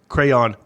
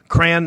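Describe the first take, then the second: First: The word is said as two syllables. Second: The word is said as one syllable. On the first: The speaker calls it right. "Crayon, two syllables" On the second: The speaker calls it wrong. "Crayon is one syllable"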